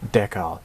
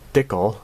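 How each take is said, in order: First: The first vowel is a short e sound. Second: The first vowel is said the Canadian way. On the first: "e as in the short sound e" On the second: "as the Canadians usually say"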